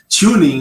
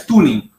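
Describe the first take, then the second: First: It is said with an American English accent. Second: It is said with a Brazilian Portuguese accent. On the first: "Ou você fala o inglês americano lá mesmo" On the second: "aportuguesando o termo seria tuning"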